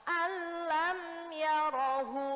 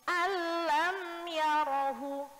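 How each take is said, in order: Both takes have the same delivery.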